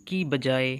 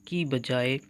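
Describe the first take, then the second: Both takes have the same delivery.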